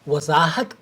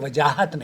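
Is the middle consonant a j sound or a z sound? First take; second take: z sound; j sound. First: The middle consonant is a z sound. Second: The middle consonant is a j sound. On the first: The speaker calls it right. "Urdu ज़ुबान में वजाहत करें, ये बोलना चाहिए" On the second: The speaker calls it wrong. "वजाहत नहीं करें"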